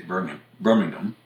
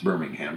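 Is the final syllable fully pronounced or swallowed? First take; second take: swallowed; fully pronounced. First: The final syllable is swallowed. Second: The final syllable is fully pronounced. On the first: This is the British way of saying it. "the British would say Birmingham. They tend to swallow that last syllable" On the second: This is the American way of saying it. "we say it's Birmingham"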